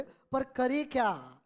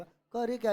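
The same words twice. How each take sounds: First: Very slow, stretched dialogue line; theatrical drawn-out question; dialogue delivery. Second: Said in the usual way. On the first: Shown as a demonstration. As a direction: deliver it like a character in a drama, drawing out each word. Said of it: "dialogue के अंदाज में बोले". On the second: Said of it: "ऐसे बोल पकड़ा".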